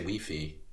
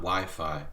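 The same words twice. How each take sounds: First: It is pronounced the Hungarian way. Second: It is pronounced the English way. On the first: "in Hungary, ... you say Wi-Fi" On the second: "not Wi-Fi"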